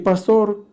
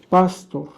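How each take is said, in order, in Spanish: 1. El acento está en la segunda sílaba. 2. El acento está en la primera sílaba. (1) "con acento en la O para referirse al ministro evangélico" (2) "con acento en la A para referirse al sacerdote católico"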